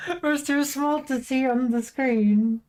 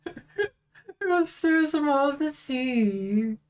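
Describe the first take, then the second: First: Said in the usual way. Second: Slow, high, whiny half-cry; mock whimper. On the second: Real, not acted. Whiny repeat, cry heard.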